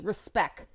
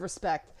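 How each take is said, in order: First: The final T sound is left off. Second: The final T sound is clearly pronounced. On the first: "respect with no T" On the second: "instead of respect"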